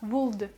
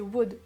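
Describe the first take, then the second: First: An L sound is pronounced before the D. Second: No L sound is pronounced before the D. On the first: The speaker calls it wrong. "ne dites pas would" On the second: The speaker calls it right. "c'est would, oubliez totalement le L"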